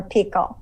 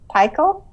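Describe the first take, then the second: First: "Pikel" with first syllable like "peek"; alternative pronunciation guess. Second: "Pikel" with first syllable like "pike"; pronunciation guess. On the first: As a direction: say "Pikel" as PEE-kul, with an ee sound. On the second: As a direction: say "Pikel" as PIE-kul, with a long i. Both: Shown as a demonstration. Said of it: "don't know how to say your last name".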